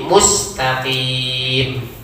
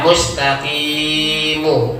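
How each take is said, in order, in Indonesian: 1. Kata ini berakhir pada konsonan m. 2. Kata ini berakhir dengan vokal pendek.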